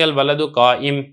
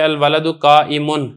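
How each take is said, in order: First: The last word stops short without the ending. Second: The last word ends with a nasal '-un' ending. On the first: This is the form used when pausing at the end. "जब आप इसको पढ़ेंगे" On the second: This is the full form with its case ending, as written. "लिखने में ऐसा लिखा जाएगा"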